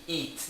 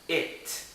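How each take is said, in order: First: The vowel is a high, tense 'ee' sound. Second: The vowel is lower and more relaxed. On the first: The speaker calls it wrong. "O I não é aqui, it, não" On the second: The speaker calls it right. "se pronuncia it"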